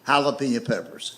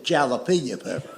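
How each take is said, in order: First: Jalapeno with an H sound; jalapeno said right. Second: Jalapeno with a hard J; mispronounced jalapeno. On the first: Shown as a demonstration. Teller saying jalapeno the proper way. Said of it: "pronounced with an H". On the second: Retold or imitated. Cousin's hard J jalapeno. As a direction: say jalapeno with a J like jam. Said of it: "But he calls it jalapeno pepper".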